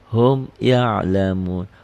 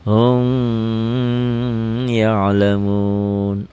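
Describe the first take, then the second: First: The m is said clearly without a hum. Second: The m is held with a nasal hum. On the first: The speaker calls it right. "Di sini idhar" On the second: The speaker calls it wrong. "dibacanya digayem"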